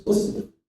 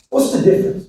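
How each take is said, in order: First: Softer, unvoiced echo; hushed repeat. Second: Said in the usual way. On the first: Speaker to crowd, echoing the question in a hush. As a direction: drop it to a near whisper. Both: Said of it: "repeated question".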